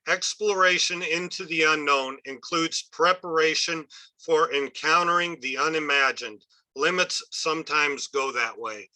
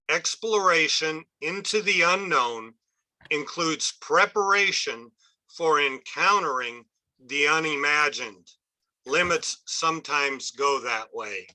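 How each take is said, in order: First: It is read at a normal pace. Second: It is read slowly.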